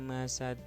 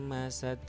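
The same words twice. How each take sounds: No difference in how they are said.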